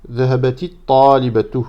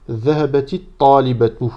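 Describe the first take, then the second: The two takes are said the same way.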